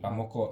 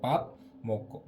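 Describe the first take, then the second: First: The two words run together as one word. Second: The two words are said separately with a break. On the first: "udah logatnya enak kan jadi pamoko" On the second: "Sebetulnya pap"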